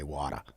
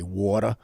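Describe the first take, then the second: First: "water" with an open Boston "ah". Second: "water" with a rounded New York "aw". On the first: Showing how Bostonians say it, "water" as "wah-tuh". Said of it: "and we say water". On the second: Showing how New Yorkers say it, "water" as "waw-tuh". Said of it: "And then they say water". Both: Shown as a demonstration.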